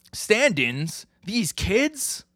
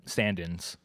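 First: Rising, high-pitched disbelief; incredulous echo. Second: Said in the usual way. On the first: Retold or imitated. Colleague balking at kids as stand-ins, incredulous. Other character balks at substitutes.

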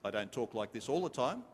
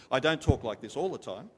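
First: Said in the usual way. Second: Raised voice, stress on all; lifted preaching voice. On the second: Shown as a demonstration. Preacher showing the congregation his pulpit voice, raised. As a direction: lift it up like from the pulpit. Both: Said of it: "I lift up my voice when I preach".

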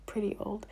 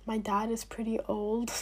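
First: Whispered, laughing repeat. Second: Said in the usual way. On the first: Real, not acted. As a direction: breathe it as a giggling aside. Dad's age repeated as aside.

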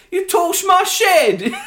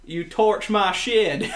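First: Loud, high, drawn-out bad Southern drawl; mock a terribly faked American Southern accent; fake Southern accent. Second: Slow, drawn-out American Southern drawl; Southern accent. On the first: Co-host mocks Maisie Williams doing the American, hammed-up Southern accent. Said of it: "Doing it with the American Southern accent". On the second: Shown as a demonstration. Co-host asked to do a Southern accent for us, slow Southern drawl. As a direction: do a Southern accent, stretching the words, higher than usual. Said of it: "Do a Southern accent for us".

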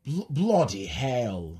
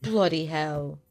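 First: Slow, halting British "Bloody hell"; weak British accent attempt. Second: Mock British accent. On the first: Host copying cohost's British "Bloody hell", slowly. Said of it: "mine's not so good". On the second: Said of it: "three things in a British accent". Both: Shown as a demonstration.

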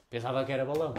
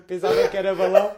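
First: Said in the usual way. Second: Much louder, higher repeat of pensava que era balão; loud incredulous repeat; loud exclaim. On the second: Retold or imitated.

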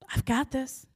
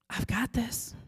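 First: Echoing reassurance. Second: Same words again, now an unvoiced whisper; fading whisper. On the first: Retold or imitated. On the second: God's promise repeating in her head, whispered. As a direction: let the echo die to a breath. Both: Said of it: "But I kept hearing it".

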